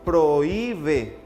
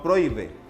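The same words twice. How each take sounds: First: The o and i fall in separate syllables. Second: The o and i merge into one syllable. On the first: The speaker calls it right. "Al momento de pronunciar la palabra decimos prohíbe" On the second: The speaker calls it wrong. "no prohíbe"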